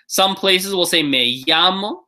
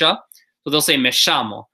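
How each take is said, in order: First: The 'll' sounds like an English Y. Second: The 'll' sounds like an English SH. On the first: "like a y, like a Y sound in English" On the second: "a couple places will also say a sh"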